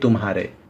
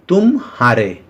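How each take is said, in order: First: The syllables run together without a break. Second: There is a break after 'tum'. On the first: Yours. "और यहां देखिए तुम्हारे" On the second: You lost. "मतलब तुम match हार गए"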